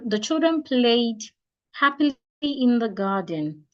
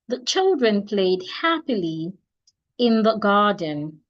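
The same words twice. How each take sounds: First: There is a pause after the word played. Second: There is a pause after the word happily. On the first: "the children played, take a pause, happily in the garden, that is wrong" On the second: "I took a short pause when I got to happily before I proceed to in the garden"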